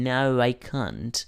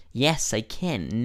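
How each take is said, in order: First: Slow model, "can't" like "kahnt"; "can't" with a long British open a; negative can't. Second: Slow model, "can" like "ken"; "can" with the vowel of "cat", stretched out; positive can. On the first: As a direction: say "can't" slowly with a broad ah. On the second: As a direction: say "can" slowly with a front a. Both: Shown as a demonstration. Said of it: "Hay que pronunciarlo bien".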